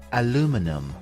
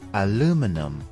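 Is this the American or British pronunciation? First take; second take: American; American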